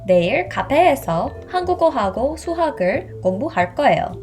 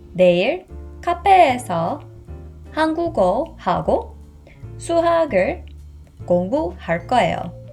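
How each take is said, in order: First: The sentence is spoken at a fast pace. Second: The sentence is spoken at a slow pace. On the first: "The first time I will say fast" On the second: "the second time I will say it much slower"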